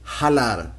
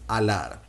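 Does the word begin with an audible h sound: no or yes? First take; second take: yes; no. First: It starts with a breathy h sound. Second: It starts directly with the vowel. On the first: The speaker calls it wrong. "you're gonna hear them saying jalar... but it's mispronounced" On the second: The speaker calls it right. "The correct pronunciation is alar"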